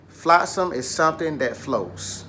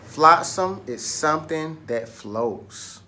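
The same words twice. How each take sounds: First: Said in the usual way. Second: Flotsam is something that floats, said slowly for repeating; slow choral model. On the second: Shown as a demonstration. Teacher leading the class in a slow echo of the definition. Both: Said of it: "Say it with me".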